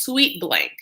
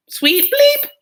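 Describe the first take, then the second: First: Said in the usual way. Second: "Bleep" shot way up high and loud; high, loud mock bleep on "Bleep"; censor bleep.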